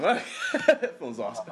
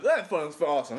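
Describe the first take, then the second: First: Slow, laughing through it. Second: Said in the usual way. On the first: Real, not acted. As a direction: savour it with a laugh.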